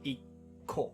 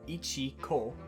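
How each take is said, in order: First: The word has a held, doubled k before 'o'. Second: The word has a full 'chi' syllable before 'ko'. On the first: The speaker calls it right. "adds a stutter and changes the sound after it into a double consonant" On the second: The speaker calls it wrong. "Rather than saying ichiko"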